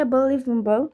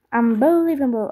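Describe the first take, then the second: First: Said in the usual way. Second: Imitating the game's English announcer on Unbelievable; Greek-accented mock announcer Unbelievable. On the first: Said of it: "Όταν λέει unbelievable". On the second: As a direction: say Unbelievable like a hyped game voice, stretched. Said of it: "η προφορά μου είναι τέλεια".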